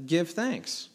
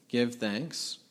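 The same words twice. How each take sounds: First: "Give thanks" said as a firm command that falls at the end; firm plain command. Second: "give thanks" said softly with a rising, offhand tune; casual optional version. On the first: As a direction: state "Give thanks" flatly as an order, no conditions. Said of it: "But it just says". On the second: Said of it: "It's not saying". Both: Shown as a demonstration.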